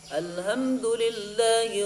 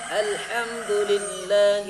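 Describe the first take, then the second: First: The h is a plain, light h sound. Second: The h is a strong pharyngeal h sound. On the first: All death belongs to God. The speaker calls it wrong. "tapi salah" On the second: All praise belongs to God. The speaker calls it right. "Makanya bagusin haknya"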